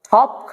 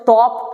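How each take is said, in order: First: The first consonant has a strong puff of air. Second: The first consonant is plain, without a puff of air. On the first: The speaker calls it right. "এটাকে আমাদের পরিবর্তন করতে হবে" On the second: The speaker calls it wrong. "আমরা এই স্টাইলে পড়লে কিন্তু আমাদের মুখে জড়তা দূর হবে না"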